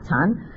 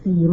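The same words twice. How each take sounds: First: The word is said with a Mandarin pronunciation. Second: The word is said with a Cantonese pronunciation. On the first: "如果普通话嚟讲咧，叫禅啊禅" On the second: "但我哋广东话咧系禅啦嘛"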